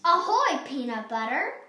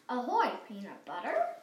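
First: The voice falls at the end. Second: The voice rises at the end.

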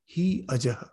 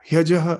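First: The two words are said apart. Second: The two words are blended into one. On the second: "instead of saying hyajaha"

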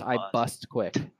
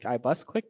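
First: The T sound in the name is clearly pronounced. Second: The T sound in the name is dropped. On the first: The speaker calls it right. "we all knew it was iBustQuick" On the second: The speaker calls it wrong. "skipping over the T to make it sound like iBustQuick"

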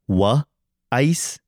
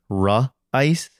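First: The first sound is a W sound. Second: The first sound is an R sound. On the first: "like the R's get lost sometimes. So like you might say like instead of like rice, you say like wa ice" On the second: "instead of ra ice"

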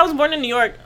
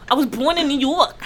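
First: It is said in a plain, neutral accent. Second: It is said in a put-on New York accent.

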